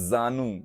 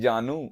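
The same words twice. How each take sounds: First: The word begins with a z sound. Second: The word begins with a j sound. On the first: The lap or thighs. "और जा में नुक्ता लग गया तो जानू" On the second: A term of endearment. "अरे मेरे जानू"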